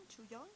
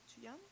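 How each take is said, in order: Both takes have the same delivery.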